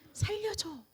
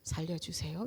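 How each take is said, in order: First: It is shouted loudly and urgently. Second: It is said quietly and calmly.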